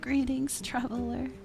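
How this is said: It is said in a weak, dying child's voice.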